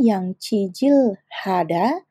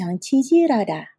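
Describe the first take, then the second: First: The l and h are said separately. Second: The l links smoothly into an r sound. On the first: The speaker calls it wrong. "Bukannya yang cijil hada" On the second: The speaker calls it right. "tetapi yang cijirada"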